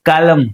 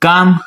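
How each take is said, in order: First: The L sound is pronounced. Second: The L sound is silent. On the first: The speaker calls it wrong. "એલ બોલાતો તો આમ બોલે" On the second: The speaker calls it right. "એલ silent હોય"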